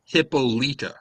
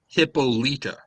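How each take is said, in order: First: The name is said with Greek pronunciation. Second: The name is said with Greek pronunciation.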